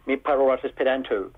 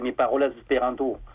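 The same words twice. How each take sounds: First: It is said with an English accent. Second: It is said with a French accent.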